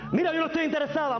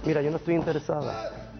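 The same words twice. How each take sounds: First: The voice sounds strong and forceful. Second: The voice sounds weak and timid. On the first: The woman shows she has power. The speaker calls it right. "Se ve que es una mujer que tiene poder" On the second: The attacker will not be deterred. The speaker calls it wrong. "el hombre te va a agarrar"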